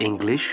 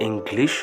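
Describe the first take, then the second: Both takes have the same delivery.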